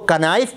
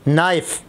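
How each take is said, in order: First: The word starts with a 'k' sound. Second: The word starts with an 'n' sound. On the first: The speaker calls it wrong. "अगर कोई उसको कनाइफ पढ़े" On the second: The speaker calls it right. "नाइफ़ में के जो है वो silent है।"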